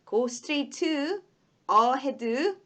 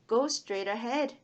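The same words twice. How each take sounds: First: A strong vowel sound follows the t. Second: The t sound is clipped short. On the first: The speaker calls it wrong. "으 발음이 너무 강하게 나요" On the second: The speaker calls it right. "짧게 드, 드, 드 할 때 그렇게 그런 짧은 느낌으로"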